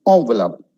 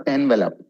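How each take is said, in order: First: Envelope said ON-ve-lope. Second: Envelope said EN-ve-lope; wrong envelope. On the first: Teacher giving students the right envelope, ON-ve-lope. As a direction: envelope starting with an o sound, ON-ve-lope. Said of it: "It's envelope". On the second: Teacher showing students the wrong envelope. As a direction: envelope with EN at the start, the form to avoid. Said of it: "It's not envelope". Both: Shown as a demonstration.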